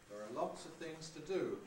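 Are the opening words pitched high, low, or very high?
low. The opening words are on a comfortable low pitch. "with there are low pitched"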